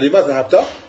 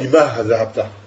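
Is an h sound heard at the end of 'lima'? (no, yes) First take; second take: no; yes. First: No h sound follows 'lima'. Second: A final h sound follows 'lima'. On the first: The speaker calls it right. "Tu vas dire lima zahabta" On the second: The speaker calls it wrong. "Tu ne vas pas dire lima zahabta"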